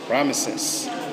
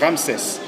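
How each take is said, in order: First: The name has three syllables ending in 'ses'. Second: The name has two syllables ending in 'ses'. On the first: This is the usual European form. "the Europeans, they pronounce it Ramesses" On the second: This is the French form. "in French we say Ramses"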